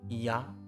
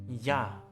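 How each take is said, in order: No difference in how they are said.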